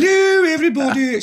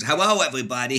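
First: Posh English drama queen, high and loud; Honey. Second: Little Elmer Fudd-style dog; lisping cartoon Elmer Fudd greeting, w for l; Leon. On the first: Acted. Actress dog greeting everybody, grand posh English. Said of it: "She talked like that". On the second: Little dog greeting everybody, Elmer Fudd voice. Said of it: "he talked like".

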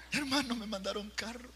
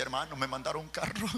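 First: High, thrilled announcement; excited retelling. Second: Said in the usual way. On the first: Retold or imitated. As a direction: say it as if bursting with the news. Yo le leía la carta.

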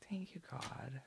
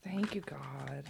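First: "Thank you, God." whispered, softer. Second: Said in the usual way. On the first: Real, not acted. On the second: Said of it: "repeated whispered".

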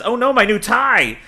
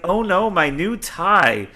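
First: High, mock-upset goon crying over his tie; lightly hammed-up distress over a tie. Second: Slower, drawn-out mock wail of a goon; lightly hammed-up slow lament over a tie. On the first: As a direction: wail about the ruined tie like a fussy henchman. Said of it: "yells the". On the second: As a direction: stretch it out as a whiny lament. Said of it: "yells the, yells this goon".

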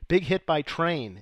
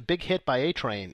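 First: Slow down to set off "Big hit by Train"; deliberate corrected quote. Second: Said in the usual way. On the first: Retold or imitated. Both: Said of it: "no, they say".

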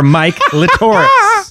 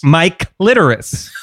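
First: High, drawn-out Mike Latoris, TOR stressed; stress on second syllable. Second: Slow Mike Litteris, LIT stressed, falling; stress on first syllable. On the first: Joking with co-hosts about the name, high slow Latoris stressed on TOR. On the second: Trying out the name for co-hosts, slow Litteris stressed on LIT. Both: Shown as a demonstration. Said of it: "you can pronounce it".

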